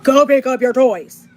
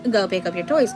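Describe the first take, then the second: First: It is said in a loud, stern tone. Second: It is said in a gentle, nice tone.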